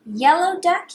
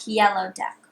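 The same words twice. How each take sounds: First: Higher calling tone; sing-song call. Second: Lower repeat. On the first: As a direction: call it up high. Repeat call. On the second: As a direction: echo it down low. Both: Shown as a demonstration.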